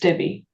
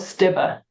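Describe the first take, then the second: First: The final vowel is not an 'a' sound. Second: The final vowel sounds like an 'a'. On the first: This is how it is said in England. "in England, for some reason, it was Stibbe" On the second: This is how it is said in Germany. "in Germany, it's pronounced Stibbe or Stibbe. So the E is an A kind of thing"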